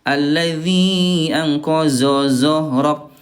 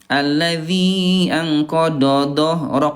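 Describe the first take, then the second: First: Both heavy consonants are said as a z sound. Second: Both heavy consonants are said as a d sound. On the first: "yang pertama itu dua-duanya zai" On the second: "yang kedua dua-duanya dal"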